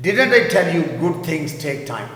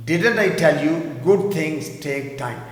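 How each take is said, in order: First: Slow, louder reading; teacher models; slow model sentence. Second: Slow, stress on good; teacher repeats. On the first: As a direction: read it slowly. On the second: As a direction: hit good. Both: Shown as a demonstration. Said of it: "میں نے کہا تھا نا اچھی چیزیں وقت لیتی ہیں".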